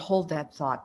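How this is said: It is said in a warm, kind tone. The person is respectfully asked to wait. The speaker calls it right. "the good tone of voice is"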